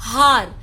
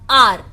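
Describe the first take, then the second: First: The word begins with an h sound. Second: The word begins with a vowel sound. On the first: The speaker calls it wrong. "It's not हार" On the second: The speaker calls it right. "It's आर. एच is silent in this word"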